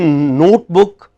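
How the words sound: The first syllable has a long 'oh' vowel. The speaker calls it right. "what should be notebook"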